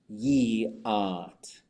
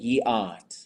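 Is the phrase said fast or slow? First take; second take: slow; fast. First: It is said slowly with a small wiggle. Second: It is said quickly without the wiggle. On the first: The speaker calls it right. "It gets that little wiggle" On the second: The speaker calls it wrong. "you're speaking too fast"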